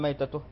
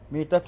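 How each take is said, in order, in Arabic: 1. المقطع الأول فيه الحركة 'a'. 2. المقطع الأول فيه الحركة 'i'. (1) "بالفتح" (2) "بالكسر"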